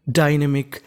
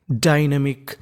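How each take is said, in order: Both takes have the same delivery.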